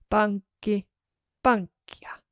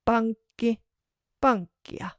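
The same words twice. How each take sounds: The two takes are said the same way.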